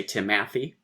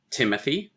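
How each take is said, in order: First: "Timathy" with stress wrenched onto the middle, ti-MATH-y. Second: "Timothy" stressed on TIM, light middle syllable; usual stress pattern. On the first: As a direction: misplace the stress on the second syllable of "Timathy". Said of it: "which would be wrenching the, the stress". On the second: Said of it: "Stress, unstressed, stress". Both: Shown as a demonstration.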